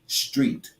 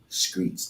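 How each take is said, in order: First: The word begins with an str sound. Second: The word begins with an skr sound. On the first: The speaker calls it right. "It's street" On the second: The speaker calls it wrong. "That ain't a fucking word"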